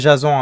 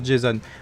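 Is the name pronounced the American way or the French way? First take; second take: French; American. First: The name is pronounced the French way. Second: The name is pronounced the American way. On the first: This is the name of the Greek hero. The speaker calls it wrong. "et pas Jason, hein, ne pas confondre" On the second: This is the American name. The speaker calls it right. "est un nom aussi euh, américain, ... ça se prononce Jason"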